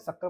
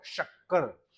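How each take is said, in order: First: शक्कर with a plain s sound at the start; common way. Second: शक्कर starting with a clear sh, air flowing out; correct pronunciation. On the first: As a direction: say शक्कर the everyday way with s. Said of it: "हम लोग हिंदी में क्या बोलते हैं?". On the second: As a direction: show शक्कर with a breathy palatal sh. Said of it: "इसका सही उच्चारण क्या होगा?". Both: Shown as a demonstration.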